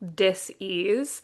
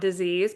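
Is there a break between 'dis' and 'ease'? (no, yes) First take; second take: yes; no. First: The word is split with a break after dis. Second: The word is said smoothly without a break. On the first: It is a lack of ease. "I put it as like dis-ease" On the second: It is an illness. "not disease"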